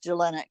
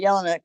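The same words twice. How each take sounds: First: The name is said the usual American way. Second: The name is said the family's own way. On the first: This is how people in the United States say the name. "Here in the United States, they par- pronounce it" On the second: This is how the family says the name. "we pronounce it Jelinek"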